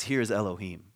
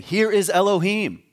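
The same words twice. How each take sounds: First: Said in the usual way. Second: "Here is Elohim" higher, louder and slow, weight on "is"; emphatic. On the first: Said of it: "It says". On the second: Shown as a demonstration. Preacher revealing the king's true claim, emphatic. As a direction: proclaim "is" as the point. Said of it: "but he's saying".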